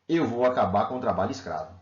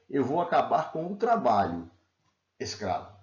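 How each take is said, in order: First: There is no pause before the final word. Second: A pause comes before the final word. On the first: Slave labor itself will be ended. "se eu tirar a vírgula" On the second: The last word addresses the listener as a slave. "A resposta do presidente é"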